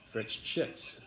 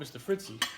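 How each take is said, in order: First: The name ends in a 'shits' sound. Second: The name ends in a light 'ee' sound. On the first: This is how the owner himself says the name. The speaker calls it right. "the way with his accent, he pronounced it as Fritz Shits" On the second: This is the mistaken way of saying the name. The speaker calls it wrong. "I used to call him mister Fritzy"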